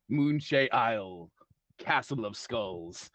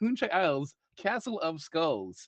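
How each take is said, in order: First: It is said dramatically, with solemn gravitas. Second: It is said casually, in a plain tone.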